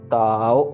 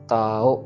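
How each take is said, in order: First: The first vowel is long, the last short. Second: The same.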